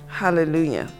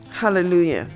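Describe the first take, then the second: No difference in how they are said.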